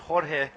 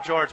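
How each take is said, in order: First: The name is said with Spanish sounds. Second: The name is said like English George. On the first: This is the name's real pronunciation. The speaker calls it right. "but it's Jorge" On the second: This is the casual nickname the speaker uses. The speaker calls it wrong. "I call him George"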